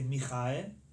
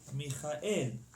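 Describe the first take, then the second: First: The stress is on the middle syllable. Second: The stress is on the last syllable. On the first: The speaker calls it wrong. "We don't say Michael. Not the middle" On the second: The speaker calls it right. "In Hebrew we say Michael at the end"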